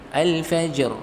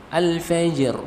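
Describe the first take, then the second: Both takes have the same delivery.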